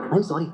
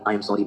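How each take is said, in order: First: Sudden apology. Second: Said in the usual way. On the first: A narrator's reading. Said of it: "मौसमी ने अचानक कहा". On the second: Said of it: "उसने".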